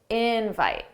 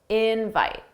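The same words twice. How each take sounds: First: The stress is on the first syllable. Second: The same.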